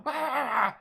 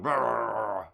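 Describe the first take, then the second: First: Very high, loud cry mimicking a person; imitated human yell. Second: Loud, drawn-out dog noise; imitated dog bark. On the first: Streamer mimicking a person heard in the distance, high yell. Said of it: "sounded like a person going". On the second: Streamer mimicking a dog heard in the distance, loud bark. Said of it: "and then a dog going".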